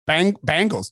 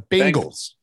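First: The first syllable sounds like 'bang'. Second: The first syllable sounds like 'ben'. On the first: It sounds like the name of a band. The speaker calls it wrong. "No, that's the band" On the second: It names the football team. The speaker calls it right. "It's the Bengals"

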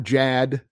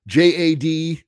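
First: The name is said as one short word. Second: The name is spelled out as three letters. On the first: "more people are calling him Jad because it's easier to say" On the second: "I still like JAD"

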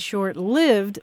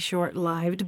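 First: The vowel in lived sounds like in live. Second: The vowel in lived sounds like in life. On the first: "because I said short-lived ... most of my life" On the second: "I tried to train myself to say short-lived ... it comes from short life"

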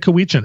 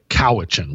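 First: The name is said the US Northwest way. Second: The name is said the Canadian way. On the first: This is how locals here say the name. "We say Cowichan" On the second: This is how others say the name. "We don't say Cowichan"

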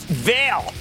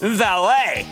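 First: It is said as one syllable, 'veil'. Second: It is said as two syllables, 'vah-lay'. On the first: The speaker calls it wrong. "often mispronounced Veil" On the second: The speaker calls it right.

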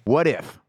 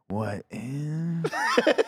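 First: The voice falls at the end. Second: The voice rises at the end.

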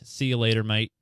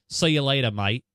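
First: It is said in the speaker's plain accent. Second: It is said in an Australian accent.

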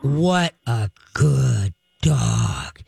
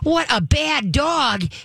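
First: It is said in a low, slow voice. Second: It is said in a high, happy voice.

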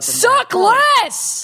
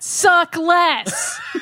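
First: It is said with high, forceful energy. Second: It is said with low, plain energy.

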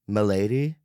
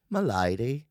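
First: It is said in his normal accent. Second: It is said in a put-on accent.

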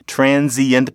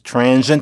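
First: An 'ee' vowel is heard after 'trans'. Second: No 'ee' vowel is heard after 'trans'.

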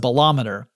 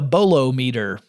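First: The stress falls on the 'lom' syllable. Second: It starts like 'bolo', as in bolo tie. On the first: The speaker calls it right. "So no, it's a bolometer" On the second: The speaker calls it wrong. "I thought it might be a bolometer"

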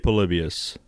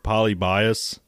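First: The name is said in a neutral way. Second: The name is said with a rural Southern sound. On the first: The speaker calls it right. "I say Polybius" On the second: The speaker calls it wrong. "that sounds like a redneck to me"

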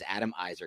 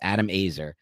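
First: The surname begins with an 'eye' vowel sound. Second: The surname begins with an 'a' vowel sound. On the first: The speaker calls it wrong. "in my head, I got in my mind that it was Adam Izer" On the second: The speaker calls it right. "my coworkers"

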